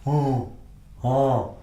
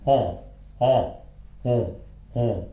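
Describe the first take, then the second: First: Nasal "on" stuck in a closed throat; "on" as a stuck French nasal vowel; throat not open. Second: Nasal "On" with open throat and lips pushed forward; French nasal "on", open-throated. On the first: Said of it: "pronounces these without the open throat". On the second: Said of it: "the open throat and the forward lips". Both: Shown as a demonstration.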